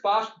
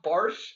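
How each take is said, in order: First: The vowel has no r sound after it. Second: The vowel has an added r sound after it. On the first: The speaker calls it right. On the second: The speaker calls it wrong.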